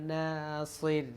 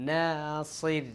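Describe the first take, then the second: The two takes are said the same way.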